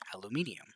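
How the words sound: It is said with a British pronunciation.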